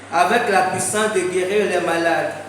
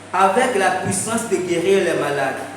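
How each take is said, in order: No difference in how they are said.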